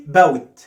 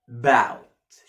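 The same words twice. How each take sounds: First: "bout" split as "ba-wit"; mis-say "bout" with a closed w and extra i; wrong pronunciation demo. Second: "Bout" low, with a long open ow; stretched correct model. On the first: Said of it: "ما بقولش bout". (نطق "bout" غلط: "باوِت") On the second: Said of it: "شفت المطة دي؟". (نطق "Bout" بالمطة) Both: Shown as a demonstration.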